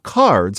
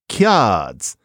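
First: It starts with plain k and keeps the r. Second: It starts with a ky sound and drops the r. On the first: "People would play not cards" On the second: "So you lose the R, and also it's kiads"

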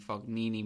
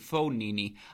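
First: The name is said with an American pronunciation. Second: The name is said without an American pronunciation. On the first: The speaker calls it wrong. "I apologize for the American pronunciation there" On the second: The speaker calls it right. "Excuse me"

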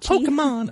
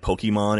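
First: It is said in a high-pitched voice. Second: It is said in a normal-pitched voice. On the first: It is meant to make the speaker sound younger. "your version of sounding younger is sounding more like a female" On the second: It makes the speaker sound old. "You sound so old when you say"

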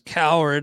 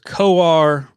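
First: The name sounds like the word coward. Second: The name sounds like co-are, with no d. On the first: The speaker calls it wrong. "I was mispronouncing his name as Coward" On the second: The speaker calls it right. "It is Coar"

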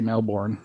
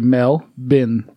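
First: It is said the American way, ending 'born'. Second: It is said the Australian way, ending 'bin'.

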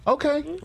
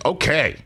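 First: It is said doubtfully, with hesitation. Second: It is said firmly, with conviction. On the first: The speaker needs proof before believing it. "the I need to see it version" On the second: The speaker fully believes it.

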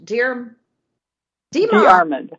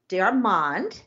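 First: The name is said plainly, without a French twist. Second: The name is said with a French-sounding twist. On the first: The speaker calls it right. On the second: The speaker calls it wrong.

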